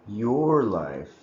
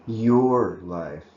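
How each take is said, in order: Both takes have the same delivery.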